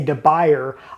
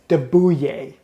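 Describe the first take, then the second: First: The second word sounds like English 'buyer'. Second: The second word sounds like 'bwee'. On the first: The speaker calls it wrong. "just reading the name you might want to say De Beyer" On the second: The speaker calls it right. "I believe the correct pronunciation"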